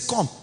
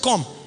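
First: It sounds pleased and impressed. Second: It sounds like a threatening warning.

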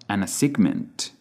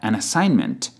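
First: The g in assignment is pronounced. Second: The g in assignment is silent. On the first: The speaker calls it wrong. "not an assignment" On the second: The speaker calls it right. "you have an assignment"

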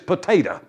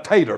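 First: The word is said in full, three syllables. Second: The word is shortened to two syllables. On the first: It sounds proper. "the right pronunciation is potato" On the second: It sounds like country speech. "I'm just going to call it a tater patch"

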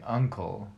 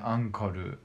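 First: It is said with a plain English pronunciation. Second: It is said with a Japanese accent, extra vowels. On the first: "instead of saying uncle" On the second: "they say ankoru"

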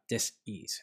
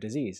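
First: The word is broken into two separate parts. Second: The word is said smoothly as one unit. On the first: The body is simply not at ease. "why I keep tripping up on the word dis-ease" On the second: The illness sounds final and frightening. "less scary than the word disease"

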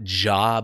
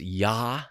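First: The syllable starts with a J sound. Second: The syllable starts with a Y sound. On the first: The speaker calls it wrong. "it's not Jah" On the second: The speaker calls it right. "but it's Yah"

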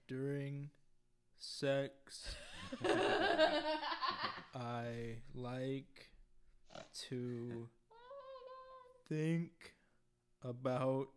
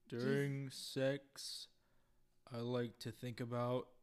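First: The words come at a very slow pace. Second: The words come at a normal pace. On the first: "Can you repeat that, but really slow and really deep?" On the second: "do it in your deepest baritone"

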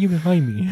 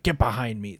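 First: It is said in a quiet, meek tone. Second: It is said in a commanding, authoritative tone.

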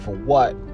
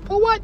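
First: It is said in a plain, ordinary voice. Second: It is said in a small, cute voice. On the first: The speaker calls it wrong. "Not like that" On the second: The speaker calls it right. "like a little cute voice"

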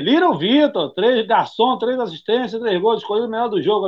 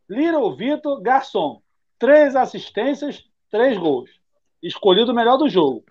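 First: It is read at a normal, quicker pace. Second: It is read slowly and deliberately.

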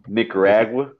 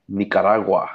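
First: The name is said with American English pronunciation. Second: The name is said with Spanish-style pronunciation.

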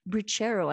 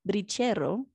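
First: It is said with an English accent. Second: It is said with a local Spanish accent.

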